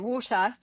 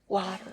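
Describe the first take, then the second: First: It is said in a British accent. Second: It is said in an American accent.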